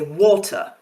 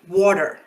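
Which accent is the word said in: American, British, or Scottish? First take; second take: British; American. First: The R sound is not pronounced at all. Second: The R sound is pronounced but not rolled. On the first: "I learned British English in school, so I don't pronounce a lot of R's. I say water" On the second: "If you're American, you'll probably say water"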